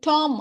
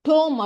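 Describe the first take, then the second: First: The vowel is an open 'ah' sound. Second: The vowel is a rounded 'oh' sound. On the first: "இதை நம்ம வந்து டாம் அப்படின்னு படிச்சிடக்கூடாது" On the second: "டோம் அப்படின்னு படிச்சிடக்கூடாது"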